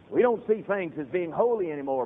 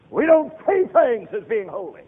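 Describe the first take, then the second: First: Said in the usual way. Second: The repeat of We don't see things as being holy hit high and loud; emphatic repeat. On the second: Shown as a demonstration. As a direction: punch it the second time.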